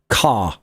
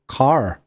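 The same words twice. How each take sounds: First: The final r sound is dropped. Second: The final r sound is clearly pronounced. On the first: "Whereas in British English we say car" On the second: "in American English they will often say the er sound at the end"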